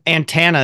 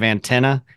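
First: "antenna" with "tan" in the middle; Kentucky pronunciation. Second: Said in the usual way. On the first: Shown as a demonstration. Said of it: "the only Kentuckyism". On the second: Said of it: "that instead of antenna".

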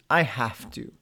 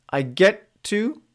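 First: Heavy have to. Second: Upbeat get to. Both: Shown as a demonstration. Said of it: "Observe what changes".

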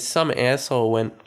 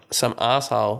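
First: Put-on slipping into an American accent; lightly attempted American accent on "asshole"; American "ass" vowel in "asshole". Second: Said in the usual way. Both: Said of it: "I'm talking an American accent".

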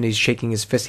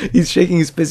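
First: Said in the usual way. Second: Higher and louder, still laughing; amused. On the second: Real, not acted. Laughing at the fist-shaking husband, amused. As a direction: say it again, cracking up at the scene.

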